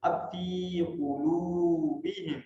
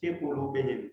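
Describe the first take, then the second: First: Very slow, فی held long in فی قلوبہم; correct recitation. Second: فی قلوبہم with فی clipped short and quick; the wrong short فی; wrong short reading. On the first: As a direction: draw out فی in فی قلوبہم. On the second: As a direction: rush فی, the common mistake. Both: Shown as a demonstration. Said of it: "اکثر ہم کیسے غلط پڑھتے ہیں".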